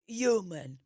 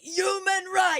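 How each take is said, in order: First: It is said quietly, without yelling. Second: It is yelled loudly.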